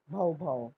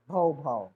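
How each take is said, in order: First: Dog bark. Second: Low, loud barking like a big dog. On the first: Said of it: "How does a dog bark?". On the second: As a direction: bark it out like a large dog. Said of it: "The large dog said". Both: Shown as a demonstration.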